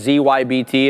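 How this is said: It is said the American way.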